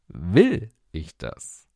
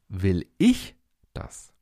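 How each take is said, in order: First: The stress is on "das". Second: The stress is on "ich".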